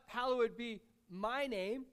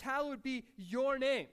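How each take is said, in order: First: "Hallowed be my name" with weight on "my"; slow, deliberate "my"; stress on my. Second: "Hallowed be your name" with weight on "your"; slow, deliberate "your"; stress on your. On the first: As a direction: lean on "my" as the wrong version. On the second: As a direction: lean on "your" slowly, not "my". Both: Shown as a demonstration.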